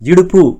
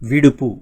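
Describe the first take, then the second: First: The word begins with a vowel, no v sound. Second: The word begins with a clear v sound. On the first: This is the everyday regional form. "ఇడుపు అంటే ఏంటి?" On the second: This is the standard form.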